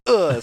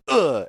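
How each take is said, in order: First: High, loud exasperated groan; annoyed ugh. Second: Frustrated groan, pitched up; a loud exasperated ugh; annoyed ugh. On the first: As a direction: ugh like a cartoon character hitting a rock. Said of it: "sound effect and laugh". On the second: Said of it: "they both always do the, "Ugh" sound effect". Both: Retold or imitated.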